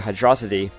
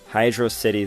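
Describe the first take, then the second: First: The name is run together as one word. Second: The name is said as two separate words. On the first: The speaker calls it wrong. "I used to say Hydrocity" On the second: The speaker calls it right. "it is in fact Hydro City Zone. Two words"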